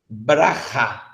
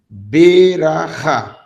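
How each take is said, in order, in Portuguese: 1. Ela é dita rápido, sem vogal depois do b. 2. Ela é dita devagar, com uma vogal completa depois do b. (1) "você deve ler rápido. Por isso que você lê Braha" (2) "se eu for ler em câmera lenta, seria assim"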